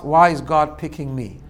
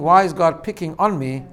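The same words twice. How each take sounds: First: "picking me" slow and emphatic, no gap; reframed question. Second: "on" picked out in "picking on me"; stress on ON. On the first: Rabbi quoting a colleague's reframed question, slow, emphatic "picking me". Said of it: "if you remove one word from that phrase". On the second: Rabbi quoting a colleague on people's complaint, stressing "on". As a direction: put the weight on "on" before "me". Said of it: "The word is on". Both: Retold or imitated.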